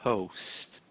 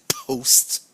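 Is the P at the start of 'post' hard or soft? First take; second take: soft; hard. First: The P is released softly and gently. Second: The P is released hard and forcefully. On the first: The speaker calls it right. "we say post, post. A little bit softer" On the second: The speaker calls it wrong. "we don't say post"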